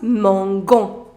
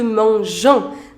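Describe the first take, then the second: First: The middle consonant is a hard G sound. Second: The middle consonant is a soft J sound. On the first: The speaker calls it wrong. "after G you have O. So it becomes mangon, which you do not say" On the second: The speaker calls it right. "change the pronunciation from mangon to mangeon"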